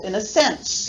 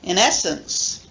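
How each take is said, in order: First: The main stress is on the third syllable. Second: The main stress is on the second syllable. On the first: "main stress on the third syllable" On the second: "the main stress following, falling on the second syllable"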